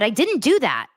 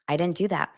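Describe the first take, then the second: First: It is said loudly and angrily. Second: It is said quietly and calmly.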